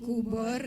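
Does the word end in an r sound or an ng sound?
r. The word ends with a vowel plus r. This is the standard Malay form.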